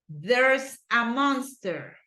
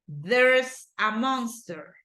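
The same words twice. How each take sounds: Both takes have the same delivery.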